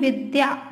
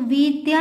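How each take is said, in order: First: The first vowel is short. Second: The first vowel is long. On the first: The speaker calls it right. "वी छोटी की मात्रा" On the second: The speaker calls it wrong. "विद्या नहीं"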